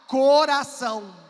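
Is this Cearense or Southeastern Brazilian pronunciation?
Southeastern. It is said with a Southeastern Brazilian accent. "Um sudestino vai pronunciar"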